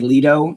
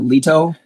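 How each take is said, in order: First: The T is a soft, flapped sound. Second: The T is a crisp, clear sound. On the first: The speaker calls it wrong. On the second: The speaker calls it right.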